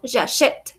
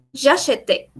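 First: "j'achète" ending on the t, final e silent; correct pronunciation. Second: "j'achète" wrongly ending in a sounded é, like "j'acheté"; wrong pronunciation. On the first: Teacher gives a student the correct present, final E silent. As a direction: close "j'achète" on t with no vowel after. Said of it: "digo j'achète en presente". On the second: Teacher shows a student what not to say, final E wrongly sounded. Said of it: "Entonces yo no digo". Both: Shown as a demonstration.

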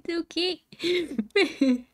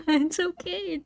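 First: Slow drawn-out okay. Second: Said in the usual way. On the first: Acted. Player soothes herself over the failed level, slow drawn-out reassurance. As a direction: stretch "It's okay" out very slowly.

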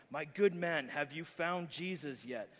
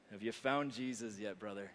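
First: Louder, slower preacher demand; strong tone. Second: Said in the usual way. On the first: Acted. Frustrated preacher demands an answer from the drunk, strong tone. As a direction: press him hard like a fed-up preacher. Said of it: "says in a strong tone".

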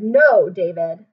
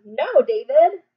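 First: Louder, slower repeated scold; insist, no more chances; insistent scold. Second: Loud slow scold. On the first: Teacher repeating the scold more firmly. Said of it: "I said". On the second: Teacher modelling a scold for the class. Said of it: "tell him". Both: Shown as a demonstration.

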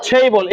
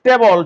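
First: ছেইবল with a puffed t and ei glide; ছেইবল said as English theibol, aspirated t; correct pronunciation. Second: টেবল with unaspirated t and plain e; টেবল with a flat short e vowel; old wrong pronunciation. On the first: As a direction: glide the first vowel of ছেইবল to i. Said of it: "এরপর একটা এই আছে". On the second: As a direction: say টেবল the Bengali way, no glide. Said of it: "আমরা আগে বলতাম টেবল". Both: Shown as a demonstration.

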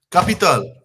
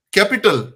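First: Capital said the French way, ka-pi-TAL, open a sounds; French pronunciation. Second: Capital said the English way, KAP-i-tal; English sounds for capital; English pronunciation. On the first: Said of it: "French is?". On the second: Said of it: "Capital in English". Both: Shown as a demonstration.

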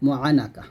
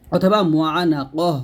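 First: Said in the usual way. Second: মুআনাকহ said slowly with a long আ and a final h; Arabic-style মুআনাকহ, drawn out, ending in a breathy h; the Arabic reading of মুআনাকহ, not the Bangla মুআনাকা; Arabic pronunciation. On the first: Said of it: "বাংলাতে মুআনাকা আমরা এরকম বলি". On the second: Shown as a demonstration. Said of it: "আর সব উচ্চারণ হবে".

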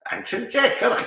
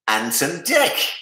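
First: High-pitched, badly faked Geordie; terrible Geordie accent. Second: Said in the usual way. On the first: Host mimicking TV duo for quiz answer, bad Geordie accent. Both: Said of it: "That was a terrible Geordie accent".

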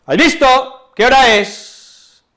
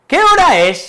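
First: "¿Has visto? ¿Qué hora es?" exclaimed high, loud and slow; exclaiming. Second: "¿Qué hora es?" as a much higher, louder question; asking a question. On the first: Teacher demonstrating an exclamation, "¿Qué hora es?", loud and slow. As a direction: call out each word with force. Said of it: "exclamó". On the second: Teacher demonstrating a question, "¿Qué hora es?", high. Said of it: "signos de interrogación cuando hacemos una pregunta". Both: Shown as a demonstration.

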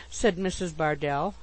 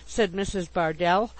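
Both takes have the same delivery.

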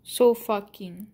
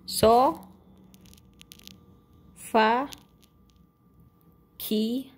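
First: So fucking joined up, still slowly; run together. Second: Slow, with long gaps between So, Fa and Ki; syllable by syllable. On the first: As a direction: say So fucking slowly as one phrase. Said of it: "You have to, like, say it fast". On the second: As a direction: say So, then Fa, then Ki, each separately. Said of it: "say it fast". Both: Real, not acted.

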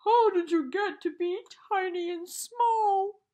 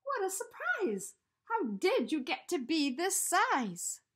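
First: Much louder, higher wail; bawling. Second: Put-on higher, louder boy voice full of wonder; surprised Eddie. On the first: The giant bear cries out to its tiny teddy, bawling loudly. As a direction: bawl it across the woods. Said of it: "could hear the voice bawl". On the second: Eddie asks the giant teddy how it grew, amazed boy voice. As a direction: marvel at how huge he is. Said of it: "said Eddie". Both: A narrator's reading.

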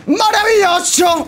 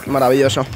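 First: High, slow drawn-out "¡Maravilloso!"; exultant. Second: Said in the usual way. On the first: Real, not acted. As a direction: stretch "¡Maravilloso!" up high in delight. Same word repeated, now exultant.

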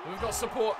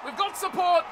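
First: Said in the usual way. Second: High, loud excited repeat; urgent shout. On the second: Real, not acted. Gamer urging on the attack in the game, urgent shout. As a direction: call it out urgently to the runner.

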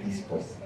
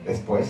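First: Dispués with i in the first syllable; ladino pronunciation. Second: Said in the usual way. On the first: Shown as a demonstration. Teacher showing the Ladino form, ladino pronunciation. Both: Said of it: "se dice dispués".

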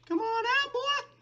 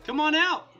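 First: Very high squeaky coaxing call; high-pitched taunt. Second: High, loud challenge; taunting call. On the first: Player coaxing the cornered wither, high-pitched taunt. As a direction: tease it out in a falsetto. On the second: Player daring the cornered wither, taunting call. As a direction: call the enemy out loudly. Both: Pretend.

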